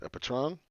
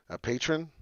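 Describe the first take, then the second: First: Patron said as "pə-TROHN", with a short first syllable and a stressed second; mispronounced patron. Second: Patron said as "PAY-trən", stressed on the first syllable; corrected patron. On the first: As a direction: stumble over patron as "pə-troon". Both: Shown as a demonstration.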